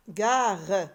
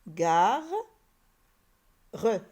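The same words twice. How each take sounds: First: Long loud ga running straight into re; syllables joined. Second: A long loud ga, pause, then re; syllable by syllable. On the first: Teacher reading the built word gare, ga-re joined up. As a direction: blend gare into one drawn-out word, final re sounded. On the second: Teacher building gare for pupils, ga and re far apart. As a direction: break gare into ga and re. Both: Shown as a demonstration. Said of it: "construire le mot".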